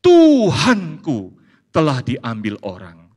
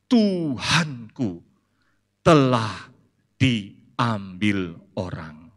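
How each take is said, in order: First: Slow, louder restatement of "Tuhanku telah diambil orang"; held up to the congregation, slowly and louder; quoted again for scrutiny. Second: Very slow, drawn-out, fading lament; a hushed, heartbroken reply; grieving Maria. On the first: Shown as a demonstration. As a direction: lean on "Tuhanku" as if weighing the odd answer. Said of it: "jawaban yang normal atau aneh". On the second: Acted. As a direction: let each word drag with loss.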